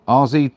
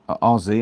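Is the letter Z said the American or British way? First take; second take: American; American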